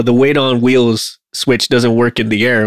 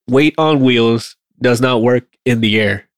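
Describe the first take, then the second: First: Said in the usual way. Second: Slow, deliberate word-by-word repeat; slower. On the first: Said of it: "will come in and say". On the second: Shown as a demonstration. Maintainer making air crew hear their own complaint, slower. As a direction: spell it out slowly so it sinks in. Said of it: "say it slower and then hear yourself".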